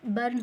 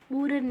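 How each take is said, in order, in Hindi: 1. r से पहले स्वर छोटा 'er' है। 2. r से पहले स्वर लंबा 'oo' है। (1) "बर्न होता है" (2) "पूरन नहीं होता है"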